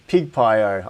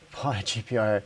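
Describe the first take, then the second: First: The name begins with the word 'pig'. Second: The name begins with the sounds 'pie gee'. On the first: This reading sounds funnier. "I think that sounds better" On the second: This is the intended name. "I know it's meant to be PyGPIO"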